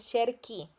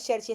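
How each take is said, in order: First: "cerchi" dicho "cherki", con sonido k duro; pronunciación correcta. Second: "cerchi" dicho "cherchi", con la "ch" suave del italiano al final; pronunciación errónea. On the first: Shown as a demonstration. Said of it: "es cerchi". ("cerchi" bien dicho, "cherki") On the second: Retold or imitated. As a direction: imita el error: "cerchi" como "cherchi". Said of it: "pero no es cerchi". ("cerchi" mal dicho, con sonido "ch" suave)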